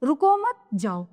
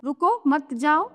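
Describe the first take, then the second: First: रुको मत run together, then जाओ apart; pause after मत. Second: रुको set apart with a rise, then मत जाओ; pause after रुको. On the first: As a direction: join रुको to मत, break before जाओ. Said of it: "और इसमें है रुको मत जाओ". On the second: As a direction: break right after रुको, keep मत जाओ together. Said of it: "इनके दोनों के अलग-अलग मतलब हो गए". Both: Shown as a demonstration.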